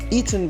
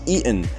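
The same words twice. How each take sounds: First: The middle consonant is a clear t sound. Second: The middle consonant is a glottal stop.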